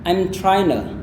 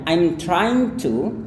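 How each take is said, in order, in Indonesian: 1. Bunyi g dan t dihilangkan. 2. Bunyi g dan t jelas dilafalkan. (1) "G-nya tidak dilafalkan, T-nya juga tidak dilafalkan" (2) "itu juga benar"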